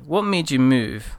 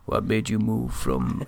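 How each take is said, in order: First: It is said in the speaker's normal voice. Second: It is said in a deliberately deeper voice.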